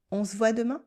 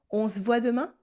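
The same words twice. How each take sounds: The two takes are said the same way.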